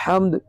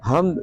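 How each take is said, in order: First: حمد with a tight pharyngeal h; hamd with ح. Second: حمد with a light glottal h; hamd with ہ. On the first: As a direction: start حمد from mid-throat, as in Arabic ح. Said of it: "ہا کے ساتھ". (حمد کو حلق والی ح سے ادا کریں) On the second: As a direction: start حمد with a simple breath h, like English h. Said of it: "اور ہا کے ساتھ". (حمد کو ہلکی ہ سے، ہمد کی طرح ادا کریں) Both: Shown as a demonstration.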